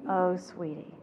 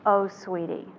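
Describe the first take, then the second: First: "Oh, sweetie" soft, falling, gently sorry; empathetic "oh sweetie". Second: "Oh, sweetie" ile yumuşak, üzgün bir iç çekiş; empathetic "oh sweetie". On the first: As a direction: let it fall with quiet sadness. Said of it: "But I'm not saying any of those words". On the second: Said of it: "the empathetic statement is". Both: Shown as a demonstration.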